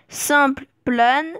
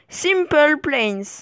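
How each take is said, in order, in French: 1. Il est prononcé avec un accent entièrement français. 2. Il est prononcé avec un accent anglais. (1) "avec un accent euh, purement français" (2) "et avec un accent anglais"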